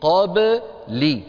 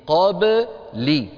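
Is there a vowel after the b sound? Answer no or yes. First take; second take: yes; yes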